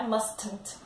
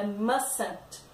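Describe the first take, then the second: First: Mustn't with the middle T sounded, must-nt; wrong pronunciation. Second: Mustn't said as MUS-ent, the T in the middle silent; right pronunciation. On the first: Teacher showing the wrong way: mustn't, middle T sounded. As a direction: show the wrong way, mustn't with a hard T. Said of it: "não é". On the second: Teacher giving the right form: mustn't said MUS-ent. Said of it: "é". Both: Shown as a demonstration.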